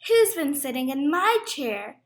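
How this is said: The voice is at a medium, moderate pitch. "in her middle-sized voice"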